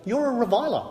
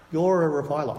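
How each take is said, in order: First: Higher, stress on you're; pointed accusation. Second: Said in the usual way. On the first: Shown as a demonstration. Preacher accusing the congregation, stressing you're. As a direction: point at them: "You're a reviler".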